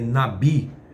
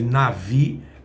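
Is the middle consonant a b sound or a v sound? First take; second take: b sound; v sound. First: The middle consonant is a b sound. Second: The middle consonant is a v sound. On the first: This is how the word is properly pronounced. The speaker calls it right. "a pronúncia correta é nabi" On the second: This is how the word is written. The speaker calls it wrong. "Se escreve navi"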